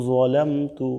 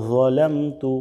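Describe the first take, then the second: No difference in how they are said.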